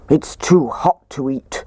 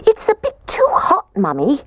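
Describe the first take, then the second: First: Slow, gruff bear voice; gruff Daddy Bear. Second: Tiny, very high-pitched voice; squeaky baby bear. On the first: Daddy Bear complains about porridge, slow and gruff. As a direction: grumble it slowly like a big bear. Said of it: "said Daddy Bear in his gruff voice". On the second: Baby bear complains to Mummy, squeaking high. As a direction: squeak it like a little cub. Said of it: "The little baby bear squeaked". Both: A narrator's reading.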